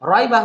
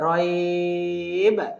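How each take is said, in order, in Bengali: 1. শব্দটি পূর্ণ স্বরধ্বনি দিয়ে শেষ হয়। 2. শব্দটি ঝাঁকুনি দেওয়া 'b' ধ্বনি দিয়ে শেষ হয়।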